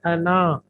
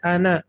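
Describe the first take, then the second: First: अना with a long final aa, as written with alif; spelled-out form. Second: अना read as ana, short final a, alif silent; correct reading. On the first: Teacher showing students how अना is written, drawn-out final vowel. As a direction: sound out अना as anaa, stretching the last vowel. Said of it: "ये लिखा जाता है अना". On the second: Teacher showing students how अना is actually read, short final a. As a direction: say अना short, clipping the last vowel. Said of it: "लेकिन पढ़ा जाता है अना". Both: Shown as a demonstration.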